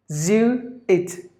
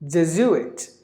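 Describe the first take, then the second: First: "Jesuit" slowly as je, zoo, it; syllable by syllable. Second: Said in the usual way. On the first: Shown as a demonstration. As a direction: separate beats for each part of "Jesuit". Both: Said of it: "there are three syllables in this word".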